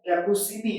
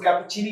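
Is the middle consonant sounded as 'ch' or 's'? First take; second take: s; ch. First: The middle consonant is an 's' sound. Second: The middle consonant is a 'ch' sound. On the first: "मैं normal way पर pronounce कर रहा हूं" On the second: "इसको कैपुचिनी भी पढ़ सकते हैं, इटालियन लैंग्वेज से है"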